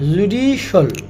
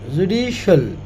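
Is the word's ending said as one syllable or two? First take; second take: one; one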